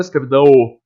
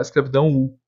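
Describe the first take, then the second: First: "escravidão o" terminando num O claro; O final, pronúncia errada. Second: "escravidão U" terminando num U claro; U final. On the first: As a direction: acrescente um O marcado no fim de "escravidão o". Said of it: "Eu não falo escravidão o". (diga "escravidão o" rápido, fechando em "dã-ô") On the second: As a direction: feche "escravidão U" com som de U depois do til. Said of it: "eu falo escravidão U". (diga "escravidão U" fechando em "dã-u") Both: Shown as a demonstration.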